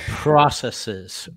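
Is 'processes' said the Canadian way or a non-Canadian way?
non-Canadian. It is said with a non-Canadian pronunciation.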